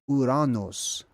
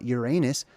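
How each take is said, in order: First: The name is said the original Greek way. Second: The name is said the commonly accepted English way. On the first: The speaker calls it right. "That's actually how it's supposed to be pronounced" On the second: The speaker calls it wrong. "It's not Uranus"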